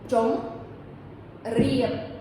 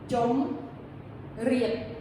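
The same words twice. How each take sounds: No difference in how they are said.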